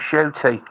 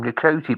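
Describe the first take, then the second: First: The name starts with an SH sound. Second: The name starts with an N sound. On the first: The speaker calls it right. "it's pronounced Shooty" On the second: The speaker calls it wrong. "I used to think maybe you pronounced his name Ncuti"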